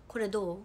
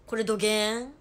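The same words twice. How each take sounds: First: Said in the usual way. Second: Loud, punchy Hakata dialect; forceful demo of heavy Hakata dialect; thick Hakata dialect. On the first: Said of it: "意味わかるかな？". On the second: Shown as a demonstration. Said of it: "どぎつい博多弁喋って".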